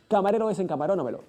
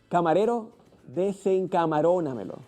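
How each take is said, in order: First: The phrase is said quickly and rapidly. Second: The phrase is said slowly and carefully. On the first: "Más velocidad" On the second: "Primero lento"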